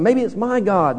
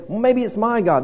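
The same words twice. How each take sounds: First: First sailor guessing. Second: Second sailor guessing. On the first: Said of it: "One, one guy's saying". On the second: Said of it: "the other fella is saying". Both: Retold or imitated.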